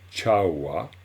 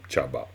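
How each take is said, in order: First: The middle consonant is a w sound. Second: The middle consonant is a b sound. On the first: The speaker calls it right. "on dit chawa" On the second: The speaker calls it wrong. "ou chaba. Pas du tout"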